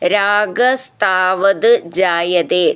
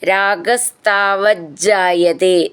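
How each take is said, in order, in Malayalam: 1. വാക്കുകൾ വെവ്വേറെയാണ് ചൊല്ലുന്നത്, അവസാനം t ശബ്ദത്തോടെ. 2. വാക്കുകൾ ചേർത്തുചൊല്ലുന്നു, ഇരട്ട j ശബ്ദത്തോടെ.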